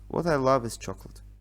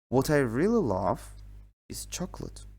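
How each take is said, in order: First: It is said flat, without stress. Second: It is said lively, with raised voice.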